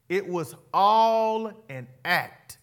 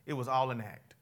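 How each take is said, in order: First: It was all an act, slow and louder, every word weighted; stressed repeat. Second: Said in the usual way. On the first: Shown as a demonstration. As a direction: lean hard on "It was all an act", drawn out. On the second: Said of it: "Y'all hear me out".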